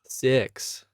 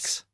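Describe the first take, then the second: First: It is said in an American accent. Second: It is said in a New Zealand accent.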